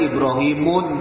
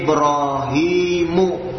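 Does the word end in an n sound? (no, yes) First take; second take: yes; no. First: The word ends with an added n sound. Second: The word ends in a vowel with no final n. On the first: The speaker calls it wrong. "tidak boleh Ibrahimun" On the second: The speaker calls it right. "Seperti Ibrahimu"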